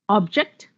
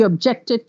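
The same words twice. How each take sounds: First: "Object" as a noun, OB stressed; OB-ject, weight on the start of "Object"; stress on first syllable. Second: "objected" as a verb, JECT stressed; ob-JECT-ed, weight on the middle of "objected"; stress on second syllable. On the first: Teacher giving noun examples, first-syllable stress. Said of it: "If the stress is on the first syllable". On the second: Teacher shifting stress to make a verb, second-syllable stress. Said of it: "Now just shift the syllable". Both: Shown as a demonstration.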